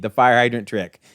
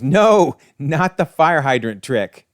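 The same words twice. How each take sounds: First: Said in the usual way. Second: Mock scream. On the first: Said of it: "Yes, indeed". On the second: Molten Man dreading the fire hydrant trick, mock scream. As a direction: throw out a mock villain's yell. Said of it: "And he screams".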